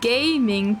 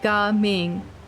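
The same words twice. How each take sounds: First: It sounds like the English word gaming. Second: It is said with Chinese-style sounds. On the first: The speaker calls it wrong. "you just have to go from gaming" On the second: The speaker calls it right. "to Gaming. It's not much of an effort to make"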